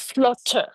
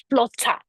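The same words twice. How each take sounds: First: FLUTTER ending in a clear "er"; schwa ending. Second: FLUTTER said as "flo-TAH"; open A ending. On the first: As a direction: say FLUTTER as "flut-TER". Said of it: "instead of the er sound". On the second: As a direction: end FLUTTER on a wide-open "ah". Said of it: "use the A sound at the end". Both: Shown as a demonstration.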